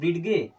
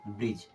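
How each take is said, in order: First: The d is pronounced, with a separate hard g. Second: The d is silent, ending in a single j sound. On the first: The speaker calls it wrong. "अगर हम डी को पढ़ते तो क्या पढ़ते हैं" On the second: The speaker calls it right. "इसका सही उच्चारण होता है ब्रिज"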